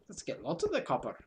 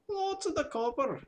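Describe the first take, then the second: First: Said in the usual way. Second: Much higher, sing-song Welsh-ish lilt on "Lots of the copper"; hammed-up half-Welsh voice; vague Welsh accent. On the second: Shown as a demonstration. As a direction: put on a rough Welsh accent. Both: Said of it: "Not quite sure what accent that is".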